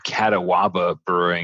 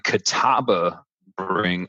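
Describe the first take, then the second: First: The name is pronounced as a newcomer would. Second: The name is pronounced the established local way. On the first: The speaker calls it wrong. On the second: The speaker calls it right.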